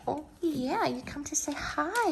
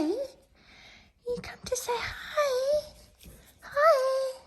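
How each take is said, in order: First: Soft, higher coo to the dog; sweet talk to a visiting pup; cooing pet voice. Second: Very high, slow, breathy squeak. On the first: Coos softly to the puppy who came to say hi. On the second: Squeals slowly to the puppy who came to say hi. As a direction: stretch it out in a tiny squeal. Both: Real, not acted.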